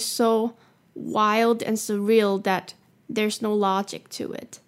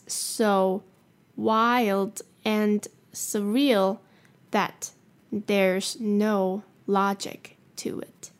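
First: The sentence is spoken at normal speed. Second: The sentence is spoken a little more slowly.

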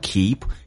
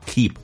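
First: The pitch rises on the word. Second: The pitch falls on the word. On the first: "你可以用升调 keep" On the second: "也可以用降调 keep"

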